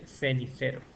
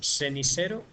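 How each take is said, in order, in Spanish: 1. La palabra empieza con un sonido th. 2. La palabra empieza con un sonido s. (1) "en vez de" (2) "Esto es seseo"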